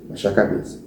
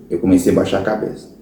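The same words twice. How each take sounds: First: Fading to quiet. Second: Said in the usual way. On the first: Retold or imitated. Ashamed, lowering his head.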